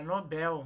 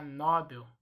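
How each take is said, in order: First: "Nobel" said no-BÉL; stress on last syllable. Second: "Nobel" said NÓ-bel; stressed open NO in "Nobel"; common mispronunciation. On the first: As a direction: open stressed BEL in "Nobel". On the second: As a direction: hit the first syllable of "Nobel". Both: Shown as a demonstration. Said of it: "muita gente vai falar Nobel".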